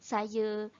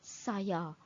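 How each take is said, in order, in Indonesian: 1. Vokal akhir direduksi menjadi schwa. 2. Vokal akhir adalah 'a' terbuka penuh. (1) "Kita tak boleh guna" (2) "Kita kena guna perkataan"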